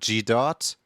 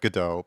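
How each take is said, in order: First: It is said as the letter G plus dot. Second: It is said as a single two-syllable word. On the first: The speaker calls it wrong. "call it G dot" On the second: The speaker calls it right. "call it Godot"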